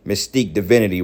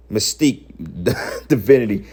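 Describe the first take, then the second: First: Said in the usual way. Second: Screen name broken up by a laugh; laughing scorn. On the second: Real, not acted. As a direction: repeat the name, cracking up midway.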